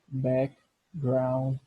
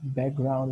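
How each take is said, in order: First: The word is said at a slower pace. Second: The word is said at a faster pace.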